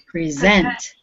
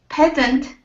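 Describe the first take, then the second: First: The stress is on the last syllable. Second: The stress is on the first syllable.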